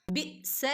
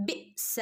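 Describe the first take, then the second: First: ബിഅ്സ whispered, ain dropped; ബിഅ്സ as the wrong unvoiced version. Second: ബിഅ്സ softer with a light catch on അ്; ബിഅ്സ, the ain only half-stopped; half sukun. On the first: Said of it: "ബിഅ്സ എന്ന് ഓതരുത്". (തെറ്റായ ബിഅ്സ) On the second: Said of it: "half സുക്കൂന് കൊടുക്കുക". (ഹാഫ് സുക്കൂനോടെ ബിഅ്സ) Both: Shown as a demonstration.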